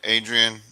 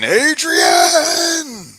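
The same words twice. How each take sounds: First: It is said in his normal voice. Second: It is said in an imitation of Rocky.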